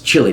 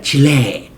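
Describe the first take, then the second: First: The name is said with an English pronunciation. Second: The name is said with a Spanish pronunciation. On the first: The speaker calls it right. "when you're in the United States, it's" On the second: The speaker calls it wrong.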